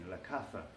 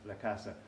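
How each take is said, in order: First: The z is pronounced like a th. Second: The z is pronounced like an s. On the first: "in Spain, we would say la caza because the Z sounds more like a T H in Spain" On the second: "Hunting in American Spanish would be la casa"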